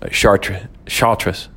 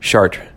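First: An S sound is heard at the end. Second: No S sound is heard at the end. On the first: The speaker calls it wrong. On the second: The speaker calls it right.

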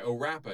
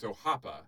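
First: The name is said with an English-style r sound. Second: The name is said with a Brazilian Portuguese r sound. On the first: The speaker calls it wrong. "it's spelled O-R-A-P-A" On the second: The speaker calls it right. "he did correct me on the pronunciation"

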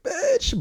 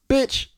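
First: It sounds playful and not really angry. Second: It sounds abrupt and hostile, with ill intent.

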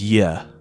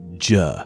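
First: The sound is a y glide, as in yes. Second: The sound is a j, as in jam. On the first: This is how the letter sounded in early English. "J was pronounced as yeah" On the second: This is how the letter sounds in modern English. "not juh"

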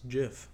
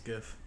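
First: The word starts with a J sound. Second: The word starts with a hard G sound.

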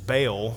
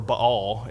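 First: The name is said with an English-style pronunciation. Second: The name is said with a Hebrew-style pronunciation.

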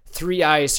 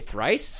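First: It is said as two separate syllables. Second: It is said as one merged syllable.

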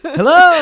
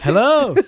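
First: It is said loudest of all. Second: It is said somewhat louder.

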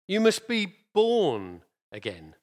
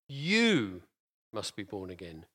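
First: The stress is on "born". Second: The stress is on "you".

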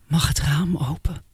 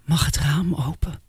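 First: The tone is warm and affectionate. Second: The same.

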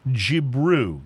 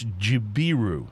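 First: The name is said with two syllables. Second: The name is said with three syllables. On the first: The speaker calls it wrong. "I'm wrong already" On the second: The speaker calls it right. "It's Jibiru. J-I-B-I-R-U"

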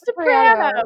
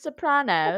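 First: It is said with a non-British pronunciation. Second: It is said with a British pronunciation. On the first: "It's Sopranos" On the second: "Unless you're British and then it's Sopranos"

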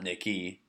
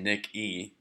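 First: It is said quickly as one run-together word. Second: It is said slowly as two separate parts. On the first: It sounds like a girl's name. The speaker calls it wrong. "if you say that fast, it sounds like Nicky" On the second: It is the intended name. The speaker calls it right. "If you say that slow"

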